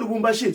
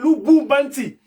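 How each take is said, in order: First: The name ends with a 'shi' sound. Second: The name ends with an 'nti' sound. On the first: The speaker calls it wrong. "faut pas dire Lubumbashi" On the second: The speaker calls it right. "c'est Lubumbanti"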